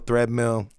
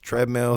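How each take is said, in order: First: The word starts with a 'thr' sound. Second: The word starts with a plain 'tr' sound. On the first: The speaker calls it wrong. "I say it wrong" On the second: The speaker calls it right. "But it's treadmill"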